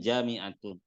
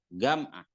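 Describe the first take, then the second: First: It starts with j and keeps all vowels. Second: It starts with g and drops a vowel. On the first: This is the standard form. "Sama dengan jami'atun" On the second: This is how Egyptians say it. "Itu dibaca gam'ah"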